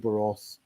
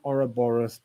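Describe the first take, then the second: First: The word is said in a short, flowing form. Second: The word is said in its full, less flowing form. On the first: The speaker calls it right. "I much prefer an Uberos" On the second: The speaker calls it wrong. "Ouroboros just doesn't have that fluidity of sound"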